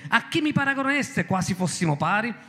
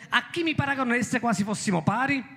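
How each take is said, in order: No difference in how they are said.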